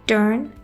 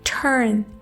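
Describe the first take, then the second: First: The first t has no puff of air. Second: The first t has a puff of air. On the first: The speaker calls it wrong. "टी की sound को उर्दू के letter टे की तरह" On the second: The speaker calls it right. "Puff of air के साथ बोलना है"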